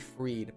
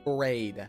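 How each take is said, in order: First: The vowel sounds like ee. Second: The vowel sounds like ay. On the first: The speaker calls it wrong. "People call me Freed" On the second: The speaker calls it right. "but my name is Frayed"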